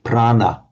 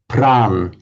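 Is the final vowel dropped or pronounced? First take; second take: pronounced; dropped. First: The word ends with a short final vowel. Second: The word ends without its final vowel.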